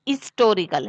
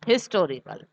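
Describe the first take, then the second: First: The opening h sound is silent. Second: The opening h sound is clearly pronounced. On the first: The speaker calls it right. "ये हिस्टोरिकल है" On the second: The speaker calls it wrong. "ना कि हिस्टोरिकल"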